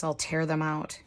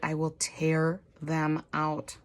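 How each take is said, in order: First: Said in the usual way. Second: Slow, deliberate 'I will tear them out' with weight on 'will'; defiant admission. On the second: Real, not acted. Vlogger confessing to book-loving viewers she tears out recipes, slow defiant. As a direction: own it slowly, dare them to object. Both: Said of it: "Yes, I said it".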